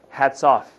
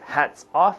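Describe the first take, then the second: First: The two words run together like one word. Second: The two words are said as separate words. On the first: "it almost sounds like one word" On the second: "instead of hats off"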